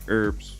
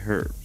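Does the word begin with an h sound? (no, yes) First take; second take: no; yes. First: It is said without the h sound. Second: It is said with the h sound. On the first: This is the American way. The speaker calls it wrong. "Americans say herbs" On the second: This is the speaker's own way. The speaker calls it right. "but we say herbs. There's a freaking H in it"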